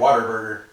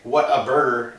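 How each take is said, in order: First: The first two words run together like 'water'. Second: Each word is pronounced clearly and separately. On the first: "It sounds like we're saying water burger" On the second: "We we don't say what a burger"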